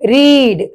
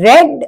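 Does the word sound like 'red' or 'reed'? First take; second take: reed; red. First: The vowel is long, like 'reed'. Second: The vowel is short, like 'red'. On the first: It is the present form. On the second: It is the past form.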